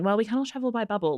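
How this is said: It is said in a warm, affectionate tone. The characters are still fond of each other. "she kind of says it with a bit of an endearing"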